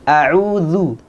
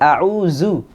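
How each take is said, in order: First: The middle consonant sounds like 'th' in 'this'. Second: The middle consonant sounds like a 'z'. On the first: The speaker calls it right. "Za ada di ujung lidah ketemu dengan ujung gigi seri yang atas" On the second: The speaker calls it wrong. "kebanyakan kita membacanya dengan a'udzu. Zu pakai zai"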